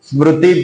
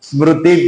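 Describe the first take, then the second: Both takes have the same delivery.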